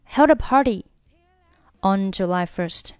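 There is a short pause between 'party' and 'on'. "如果你不想连读呢，这个地方你就停顿一下"

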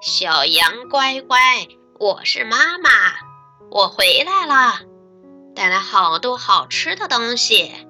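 The wolf's voice sounds soft and thin.

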